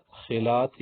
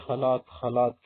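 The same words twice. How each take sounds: First: خلاط said carefully with its formal vowels; standard Arabic pronunciation. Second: خلاط said simply as "khalat"; everyday "khalat" for خلاط, single light l; colloquial Arabic pronunciation. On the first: Teacher showing learners the word for mixer, خلاط said carefully. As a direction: give خلاط its full textbook form. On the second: Teacher quoting everyday Arabic speakers, خلاط said as plain "khalat". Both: Shown as a demonstration. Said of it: "ہم عربی میں لوگ کیا بولتے ہیں".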